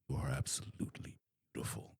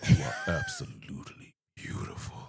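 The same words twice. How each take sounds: First: It is said in a plain, dark, deep voice. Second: It is said in a deep, saucier, flirtier voice. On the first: "just dark, deep voice" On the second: "a little bit more like saucy"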